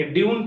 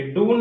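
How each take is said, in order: First: ड्यून as dyoon, with y-glide; ड्यून said dyoon, the corrected reading; correct yoo pronunciation. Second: डून as doon, without a y-glide; डून, the mistaken doon reading; wrong oo pronunciation. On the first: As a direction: put a "you" sound in ड्यून. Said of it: "ड्यून पढ़ेंगे". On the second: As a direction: say dune wrongly as डून, pure oo. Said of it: "डून नहीं पढ़ेंगे". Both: Shown as a demonstration.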